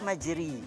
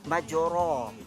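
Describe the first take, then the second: First: The vowel after r is a close i. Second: The vowel after r is an open a. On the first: "Kalau baris di bawah majri" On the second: "Kalau baris di atas kita baca majra"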